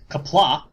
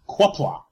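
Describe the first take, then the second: First: The word begins with a plain "k" sound. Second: The word begins with a "kw" sound. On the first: The speaker calls it right. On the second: The speaker calls it wrong.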